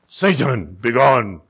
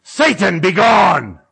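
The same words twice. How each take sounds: First: Low, firm casting-out; deep-voiced, controlled rebuke; authoritative command. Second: Loud mock exorcism shout; booming prophet's rebuke, played for laughs; exorcist's command. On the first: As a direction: order the devil out in a deep voice. Replays the command from text. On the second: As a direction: cast out the devil at full voice. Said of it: "I turn to Nikki and I go".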